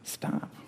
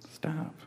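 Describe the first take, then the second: First: Breathy whispered stop, pleading; Jesus gently warning in a whisper; whispered plea. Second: Soft high plea. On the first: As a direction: hush them with a whisper. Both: Acted. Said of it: "he says".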